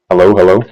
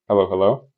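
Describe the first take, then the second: First: The voice sounds too loud and boosted. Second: The voice sounds natural and balanced. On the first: The speaker calls it wrong. "I'm a little too loud now" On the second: The speaker calls it right. "that sounds like me"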